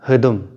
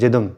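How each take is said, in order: First: The word begins with an h sound. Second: The word begins with a j sound. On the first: "ये पोर्शन जो है हिदुम बोलेगा" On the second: "वो जिदुम बोले"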